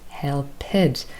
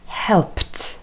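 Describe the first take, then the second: First: The ending is sounded as an extra syllable. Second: The ending is a plain t sound. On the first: The speaker calls it wrong. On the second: The speaker calls it right.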